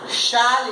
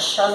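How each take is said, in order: First: The word has a full, clear vowel. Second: The word has a reduced, weak vowel. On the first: "is the strong form" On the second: "is the weak form"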